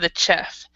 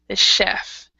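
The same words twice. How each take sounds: First: The ch is a hard sound, as in chip. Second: The ch is a soft sound, like sh. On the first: The speaker calls it wrong. "we don't make the ch hard ... instead of the chef" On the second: The speaker calls it right. "We would say the chef"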